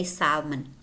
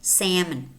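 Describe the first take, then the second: First: Salmon with an open ah, SAHL-mun; British pronunciation. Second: Salmon as SAM-un, silent L; American pronunciation. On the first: Teacher shows how British say it, salmon as SAHL-mun. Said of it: "In British English, they say". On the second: Teacher shows American English to learners, salmon as SAM-un. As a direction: drop the L in "salmon", short flat-a SAM-un. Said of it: "in American English, we don't pronounce the L". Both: Shown as a demonstration.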